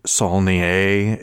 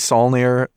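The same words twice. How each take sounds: First: The name is said with a French pronunciation. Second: The name is said with an English pronunciation. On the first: "It could be Saulnier if he's French" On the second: "It's probably"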